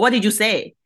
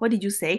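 First: It is said in a strong, harsh tone. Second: It is said in a mild, casual tone. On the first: The listener is annoyed at what was said. The speaker calls it wrong. "那个tone 如果太strong 的话" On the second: The listener simply did not hear. The speaker calls it right. "其实有时候我也会讲"

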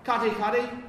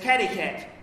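First: The name is said with Māori vowel sounds. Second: The name is said with anglicized English vowel sounds. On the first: The name is said as in its own language. The speaker calls it right. "it's not cutty cutty" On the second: The name is changed to suit English speakers. The speaker calls it wrong. "which was mispronounce it, adulterate it"

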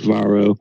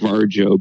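First: The name is said in a fancier, foreign-sounding way. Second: The name is said plainly, as spelled in English. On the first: The speaker calls it right. "It's supposed to be fancier sounding like Varo" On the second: The speaker calls it wrong. "I want to call it Varjo, but I know it's wrong"

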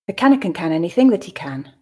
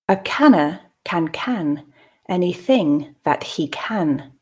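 First: The line is read at a natural pace. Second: The line is read slowly and carefully. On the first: "I'll then read at a more natural pace" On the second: "the first time I'll read slowly"

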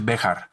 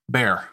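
First: The name is said with two syllables. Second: The name is said as one syllable. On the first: This is the original local pronunciation. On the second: This is how English-speaking settlers said it.

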